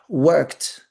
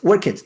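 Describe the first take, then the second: First: The ending is a short t sound. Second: The ending is an extra 'id' syllable. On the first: The speaker calls it right. "o E D tem som de T" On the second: The speaker calls it wrong. "tá errando, só tá falando o E D aqui errado"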